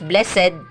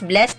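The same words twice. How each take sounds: First: The word is said as two syllables. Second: The word is said as one syllable. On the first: "two syllables" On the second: "with one syllable lang siya"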